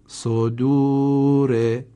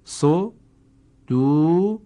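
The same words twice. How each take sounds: First: صدوره joined in one slow, drawn, louder take; slow recitation of the whole word; combined reading. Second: صدوره said in drawn-out parts, very slow and higher; slow, broken teaching read; syllable by syllable. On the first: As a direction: read صدوره whole, stretching the long vowel. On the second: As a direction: break صدوره into slow pieces. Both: Shown as a demonstration. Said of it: "کلمهٔ بعدی".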